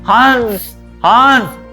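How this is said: The nose is pinched, so the nasal sound is blocked. The speaker calls it wrong. "अगर नाक ऐसे बंद करके बोलेंगे तो ये आपको हंस आप नहीं बोल पाएंगे। ... नहीं आ रहा ना"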